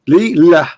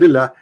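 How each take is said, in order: First: It is said slowly, split into two parts. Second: It is said quickly, run together as one.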